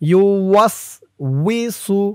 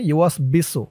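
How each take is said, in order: First: The third syllable begins with a w sound. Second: The third syllable begins with a b sound. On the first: The speaker calls it right. "আপনারা খেয়াল করুন আমি কিভাবে বলি" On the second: The speaker calls it wrong. "অনেকে বলে ফেলে ইউ ওয়াস বিসু, এমন করে উচ্চারণ করে ফেলে"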